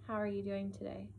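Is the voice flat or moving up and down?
flat. The pitch stays flat without question intonation. The speaker calls it wrong. "You don't want to say"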